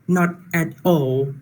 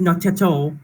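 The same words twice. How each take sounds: First: The words are said separately, without linking. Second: The words run together, consonants linked to vowels.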